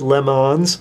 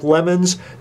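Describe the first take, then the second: First: It sounds like the French name Le Mans. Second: It sounds like the English word lemons. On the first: The speaker calls it right. "They pronounce it Le Mans" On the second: The speaker calls it wrong. "Now it looks like lemons"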